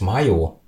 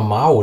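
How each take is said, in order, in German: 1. Der Name wird zweisilbig ausgesprochen, wie 'mayo'. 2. Der Name wird einsilbig ausgesprochen, wie 'mao'. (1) "Der heißt Mayo" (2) "Wieso sagst du eigentlich immer Mao?"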